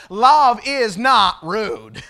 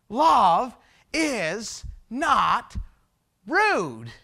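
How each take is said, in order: First: Loud, slow, connected "love is not rude"; emphatic declaration. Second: "love", "is", "not", "rude" very slow, each set apart; word-by-word emphasis. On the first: Preacher restates the text in today's words, emphatic. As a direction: proclaim it forcefully in one drawn-out phrase. Declares the point, first take. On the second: Preacher drives home "love is not rude", deliberately spaced. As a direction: pause between "love is not" and a falling "rude". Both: Shown as a demonstration.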